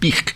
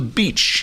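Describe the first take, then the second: First: The word is said with a put-on Hebrew sound. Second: The word is said the plain English way.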